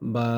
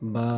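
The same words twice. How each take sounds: No difference in how they are said.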